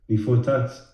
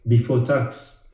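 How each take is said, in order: Both takes have the same delivery.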